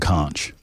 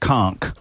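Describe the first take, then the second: First: The word ends with a ch sound. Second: The word ends with a k sound. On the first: "in America, we pronounce C H. Ch" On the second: "it would be spelled C O N K"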